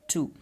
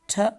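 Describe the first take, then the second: First: The vowel is full, like the number two. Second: The vowel is reduced, a short weak sound. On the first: "in strong form, this is two" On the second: "in weak form, this is this T"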